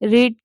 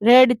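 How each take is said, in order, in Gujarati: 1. સ્વર લાંબો છે, 'reed' જેવો. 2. સ્વર ટૂંકો છે, 'red' જેવો. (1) "રીડ છે" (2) "આપણે ઉચ્ચાર રેડ થાય પણ સ્પેલિંગ એને એ રહી"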